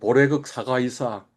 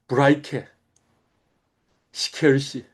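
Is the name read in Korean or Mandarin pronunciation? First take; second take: Korean; Mandarin. First: The characters are read with Korean sounds. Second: The characters are read with Mandarin sounds. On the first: "한자 발음식으로 하면" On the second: "실제 중국 발음은 뭐냐면 이렇답니다"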